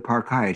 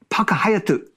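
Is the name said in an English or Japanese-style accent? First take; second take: English; Japanese. First: The name is said with English pronunciation. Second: The name is said with Japanese-style pronunciation. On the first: A local listener would not understand it. The speaker calls it wrong. "he doesn't know what you're saying" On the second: A local listener would understand it. The speaker calls it right. "or in Japanese, Paka Hayatu. That's how you say it"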